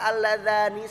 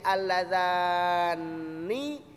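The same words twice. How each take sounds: First: The n sound is short and single. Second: The n sound is held long and doubled.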